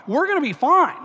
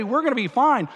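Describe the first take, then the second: First: "We're gonna be fine" lifted up at the end, coaxing; soothing, rising "fine"; mock soothing peacemaker. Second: Said in the usual way. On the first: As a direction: reassure the drunk guys, rising hopefully. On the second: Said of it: "as soon as I say".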